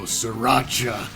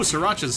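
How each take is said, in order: First: It is said in a deep cartoon-ape voice. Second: It is said in a bland, anglicized voice. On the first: "Donkey Kong voice"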